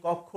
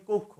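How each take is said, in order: First: কক্ষ with an open "ɔ", kɔkkho; কক্ষ said as kɔkkho, open first vowel; common wrong pronunciation. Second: কক্ষ with a closed "o", kokkho; কক্ষ said as kokkho, rounded o; correct pronunciation. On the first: Teacher shows the common mispronunciation কক্ষ with open ɔ. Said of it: "আমরা অনেকে কক্ষ উচ্চারণ করি". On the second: Teacher gives the correct কক্ষ with closed o. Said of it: "কিন্তু আসলে উচ্চারণটি কক্ষ". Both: Shown as a demonstration.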